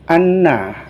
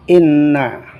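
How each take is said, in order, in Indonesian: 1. Kata ini dimulai dengan huruf vokal a. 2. Kata ini dimulai dengan huruf vokal i.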